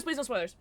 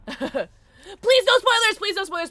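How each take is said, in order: First: Said in the usual way. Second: High, slow, loud plea; loud pleading. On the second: Real, not acted. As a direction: beg the chat loudly. Pleading to chat.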